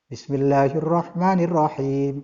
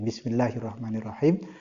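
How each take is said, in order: First: The phrase is said loudly and clearly. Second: The phrase is said softly and unclearly. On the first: The opening phrase is recited audibly in prayer. "bil jahri dengan suara yang terang" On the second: The opening phrase is recited silently in prayer. "itu dibacanya sirron"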